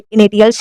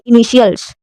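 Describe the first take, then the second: First: The middle consonant is a 't' sound. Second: The middle consonant is an 'sh' sound. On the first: The speaker calls it wrong. "जिसको नहीं पता है वो इसे इनिटियल्स ही पढ़ेगा" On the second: The speaker calls it right. "इसे क्या पढ़ेंगे? इनिशियल्स"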